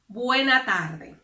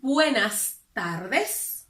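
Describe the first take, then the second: First: The final s sounds are dropped. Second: The final s sounds are pronounced. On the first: "swallow the letter S" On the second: "if they want to say buenas tardes"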